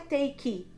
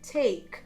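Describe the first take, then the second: First: The word ends with an extra vowel sound. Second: The word ends cleanly on the k sound. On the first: The speaker calls it wrong. "não é take, Você não fala assim no final" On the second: The speaker calls it right. "é take"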